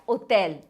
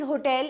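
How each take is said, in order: First: The word begins with no h sound. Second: The word begins with an audible h sound. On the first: "in French you will pronounce it as hotel. You will never pronounce the H" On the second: "this is hotel in English"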